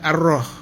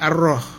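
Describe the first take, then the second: First: The vowel is heavy, dark and rounded. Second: The same.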